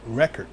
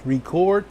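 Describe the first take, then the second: First: Record said as REK-erd, stress on the first syllable; pronunciation. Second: Record said as REE-cord, stress on the second syllable: ri-KORD; pronunciation. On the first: Preacher showing the class REK-erd. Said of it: "sometimes it's pronounced record". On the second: Preacher showing the class ri-KORD. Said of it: "is pronounced record". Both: Shown as a demonstration.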